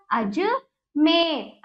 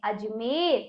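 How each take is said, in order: First: Ajmer very slow in two parts; broken-up reading. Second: Ajmer as one word, lower and softer; low, soft, unbroken Ajmer; joined-up reading. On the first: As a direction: split Ajmer as अज, then a long मेर. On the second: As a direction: say Ajmer quietly in one piece. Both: Shown as a demonstration. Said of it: "तो इस प्रकार हमने इसको पढ़ा".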